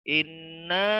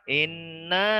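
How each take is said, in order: No difference in how they are said.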